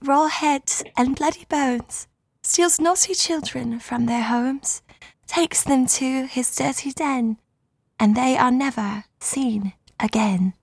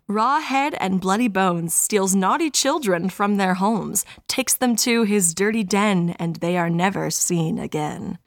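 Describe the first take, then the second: First: It is read in a haunted Victorian doll voice. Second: It is read in her normal voice.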